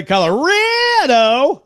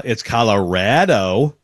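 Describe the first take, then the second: First: "Colorado" high and drawn out, hammed up; Joel Klatt's Colorado. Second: "Colorado" with a flat A, said slowly; local Colorado. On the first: Host imitating Klatt pushing the local Colorado, high and drawn. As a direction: stretch "Colorado" high and slow. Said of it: "he says it like". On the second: Shown as a demonstration. Host showing how locals say Colorado, slowly. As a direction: say "Colorado" slow, rad like rat. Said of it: "learn that it's Nevada".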